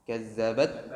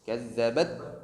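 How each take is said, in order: First: The final t is held and pressed before release. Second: The final t is held and pressed before release.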